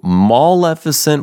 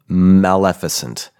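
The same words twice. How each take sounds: First: The first vowel is a back 'ah' sound. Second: The first vowel is a front 'a' sound. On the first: The word would have two L's. The speaker calls it wrong. "So maleficent would be two L's, M-A-L-L" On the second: The word has one L and means bad. The speaker calls it right. "but maleficent, mal, bad, M-A-L"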